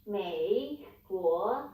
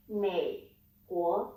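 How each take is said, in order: First: MEI and GUO each dipping, then rising; falling-rising tone. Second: MEI and GUO held low, without the full rise; low third tone. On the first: Teacher showing how not to say United States, dipping-rising Mei Guo. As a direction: draw Mei Guo through full falls and rises. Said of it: "you don't need to say". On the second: Teacher showing how to say United States, low Mei Guo. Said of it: "just to keep it low". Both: Shown as a demonstration.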